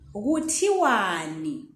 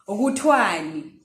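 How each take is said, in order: First: The vowel after the t is fully pronounced. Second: The vowel after the t is dropped. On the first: This is the full written form. "this is the uh, longer way of saying it, or the way we write it" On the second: This is how people say it in conversation. "in conversation, you hear people, uh, people saying"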